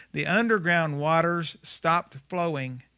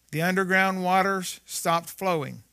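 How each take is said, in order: No difference in how they are said.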